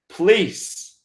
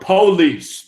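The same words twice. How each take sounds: First: The first syllable is squeezed, sounding like 'please'. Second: Both syllables are fully said, 'po-lice'. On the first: "That's how I pronounce it" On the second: "I guess you guys go more police"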